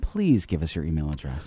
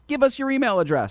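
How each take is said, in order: First: The request sounds polite and gentle. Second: The request sounds demanding and blunt.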